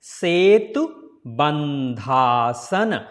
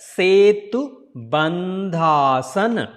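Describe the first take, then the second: First: Bandha and asana are joined into one word. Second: Bandha and asana are joined into one word.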